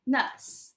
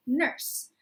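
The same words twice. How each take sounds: First: "nurse" the British way, R not sounded; British-accent R. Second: "nurse" with a bunched American R. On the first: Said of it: "it's called a tapped R". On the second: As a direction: say "nurse" with the R fully sounded, tongue edges raised. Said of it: "it's called a bunched R". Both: Shown as a demonstration.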